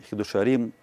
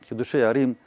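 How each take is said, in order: Both takes have the same delivery.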